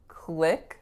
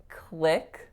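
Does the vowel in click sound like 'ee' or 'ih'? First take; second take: ih; ih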